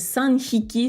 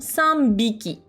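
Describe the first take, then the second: First: The second part starts with an h sound. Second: The second part starts with a b sound. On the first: The speaker calls it wrong. "c'est dur à dire" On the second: The speaker calls it right. "On va le prononcer plus naturellement"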